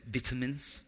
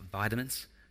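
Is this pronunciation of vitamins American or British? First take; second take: British; American. First: It is said with a British pronunciation. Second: It is said with an American pronunciation. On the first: The speaker calls it right. "Notice I said vitamins" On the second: The speaker calls it wrong. "not vitamins"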